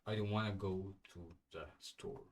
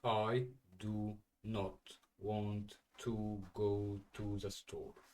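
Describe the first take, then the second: First: The words are linked and reduced together. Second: Each word is said separately and fully. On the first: The speaker calls it right. "So we connect want with to, and it become one" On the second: The speaker calls it wrong. "It's long and boring"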